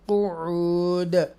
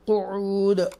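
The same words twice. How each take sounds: First: कुऊद drawn out slowly with the final d bounced; slow Quranic recitation of कुऊद with an echoing stop; qalqala on the final d. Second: Said in the usual way. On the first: Shown as a demonstration. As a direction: stretch कुऊद, then let the closing d echo. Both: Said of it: "ऐसे पढ़ेंगे".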